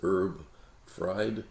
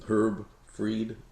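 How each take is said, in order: First: The surname has an eye vowel sound. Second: The surname has an ee vowel sound. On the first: The speaker calls it wrong. "pronounce it Herb Fried, you'll get chicken recipes" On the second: The speaker calls it right. "my name is Herb Freed"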